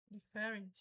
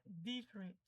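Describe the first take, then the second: First: "different" stressed on FE; wrong stress. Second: "different" stressed on DI; correct stress. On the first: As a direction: say "different" as di-FÉ-rent. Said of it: "não é nenhuma dessa forma". ("different" com tônica errada no fé) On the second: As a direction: punch the first syllable of "different". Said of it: "A pronúncia correta seria". ("different" com tônica no di) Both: Shown as a demonstration.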